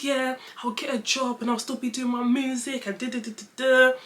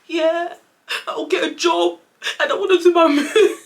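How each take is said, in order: First: Lightly high-pitched, milder imitation of herself; retold promise. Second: High, loud blubbering wail breaking into laughter; hammed-up sobbing promise; mock crying. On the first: Daughter telling dad her plan, mildly put-on pleading. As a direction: imitate an eager promise without the wailing. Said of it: "I said". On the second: Daughter telling dad her plan, in exaggerated tears. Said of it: "really crying".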